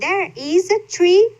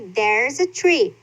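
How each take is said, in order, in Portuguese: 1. 'There is' é dito como duas palavras completas. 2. 'There is' é comprimido em uma única sílaba.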